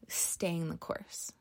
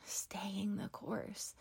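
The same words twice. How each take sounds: First: Said in the usual way. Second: Slow, hushed whisper of the phrase; whispered repeat. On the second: Shown as a demonstration. Podcast host echoing her motto to listeners, in a slow whisper. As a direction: breathe it out slowly as a soft echo.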